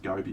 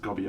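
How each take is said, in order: First: Gobi said as GOH-bee; long oh vowel in Gobi. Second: Gobby, rhyming with hobby; short, open o in Gobby. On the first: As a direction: say Gobi like the desert. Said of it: "I think it's pronounced Gobi". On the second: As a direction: say Gobby as GOB-ee. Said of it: "I always much prefer pronouncing things Gobby". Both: Shown as a demonstration.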